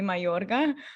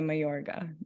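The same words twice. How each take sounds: First: The name is pronounced with Spanish sounds. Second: The name is pronounced with English sounds. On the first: This is how a Spanish speaker would say it. "if you're a Spanish speaker, it would be Mayorga" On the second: This is the easier way for other speakers. "I think it's easier if you say Mayorga"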